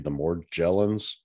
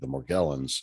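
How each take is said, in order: First: The g is soft, like a j. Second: The g is hard, like in go. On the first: This is how doctors and researchers say it. "pronounce it with the soft G" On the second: This is how patients themselves say it. "typically utilize the hard G"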